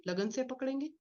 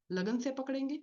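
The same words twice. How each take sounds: The two takes are said the same way.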